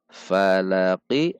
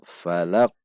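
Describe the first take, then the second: First: Said in the usual way. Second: "falaq" dengan qaf sukun dipantulkan; qalqalah memantul. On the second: Shown as a demonstration. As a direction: pantulkan bunyi akhir "falaq". (qaf di akhir "falaq" memantul) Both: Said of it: "ketika sukun dibaca memantul".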